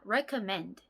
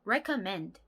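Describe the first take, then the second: No difference in how they are said.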